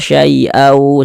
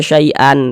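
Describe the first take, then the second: First: The n sound merges into the following w. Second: The final n sound is pronounced clearly. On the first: The speaker calls it right. "tapi dibaca syai'au" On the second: The speaker calls it wrong. "Jangan dibaca syai'an"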